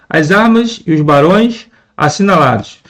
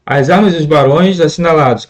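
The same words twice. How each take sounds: First: Verse line with pauses between phrases; measured verse reading. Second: "as armas e os barões assinalados" run together without pauses; read as intended. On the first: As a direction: read the verse in separated phrases. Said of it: "Se a gente for ler". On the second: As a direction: join "e os" into one syllable, "ios", in a flowing line. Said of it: "da maneira como é, deve ser lido". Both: Shown as a demonstration.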